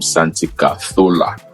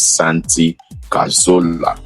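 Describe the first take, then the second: First: The name is said in a Spanish accent. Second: The name is said in an English accent.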